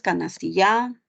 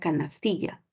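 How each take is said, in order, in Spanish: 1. El acento cae en otra sílaba. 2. El acento cae en la penúltima sílaba. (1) "Tú no dices canastilla" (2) "Tú ubicas la mayor fuerza de voz en la penúltima sílaba"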